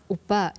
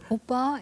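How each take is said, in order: First: The word is said low and blunt. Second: The word is said on a high pitch. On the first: The speaker sounds strong and unfeminine. The speaker calls it wrong. "이게 아니고" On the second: The speaker sounds sweet and feminine. The speaker calls it right. "이렇게 가야 되는 거죠"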